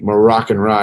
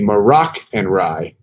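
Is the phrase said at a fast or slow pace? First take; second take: fast; slow. First: The phrase is said quickly, running words together. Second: The phrase is said at an ordinary, careful pace.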